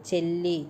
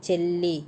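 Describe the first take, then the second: The two takes are said the same way.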